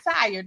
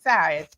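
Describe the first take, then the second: First: The r sound is pronounced clearly. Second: The r sound is dropped entirely. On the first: Ordinary tiredness. "not tired" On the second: Complete exhaustion. "but tired. Take the r out"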